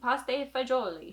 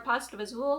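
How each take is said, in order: First: It is said with an Italian pronunciation. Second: It is said with an English pronunciation.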